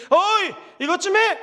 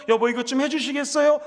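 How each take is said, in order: First: Higher, slow, bossy "어이, 이것 좀 해!"; husband rudely ordering his wife around. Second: Polite request. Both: Shown as a demonstration. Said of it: "이러면 안 됩니다".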